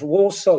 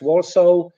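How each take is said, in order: First: The second vowel is a long O sound. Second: The second vowel is a short O sound. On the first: "instead of" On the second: "long O is often in, uh, replaced with O"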